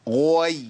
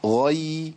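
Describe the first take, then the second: First: غوي with an added w glide, slow; wrong glide demo. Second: غي said cleanly with no w glide; correct غي. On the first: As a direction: show the mistaken غوي. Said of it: "ما تنفع". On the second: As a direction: model the plain غي. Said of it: "صح يا شيخ أحمد". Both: Shown as a demonstration.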